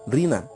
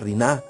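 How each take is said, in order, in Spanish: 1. El acento está en la primera sílaba. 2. El acento está en la última sílaba.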